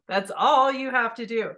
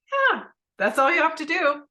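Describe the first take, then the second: First: Said in the usual way. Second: High, loud and bright, emphatic yes; cheerful husband saying it's that simple; bright eager reassurance; eager husband agreeing. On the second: Retold or imitated.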